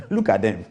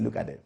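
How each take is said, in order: First: Laughing through the words. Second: Said in the usual way. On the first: Retold or imitated. Laughing at the scam caller's offer. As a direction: chuckle it out in disbelief. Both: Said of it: "I burst out laughing".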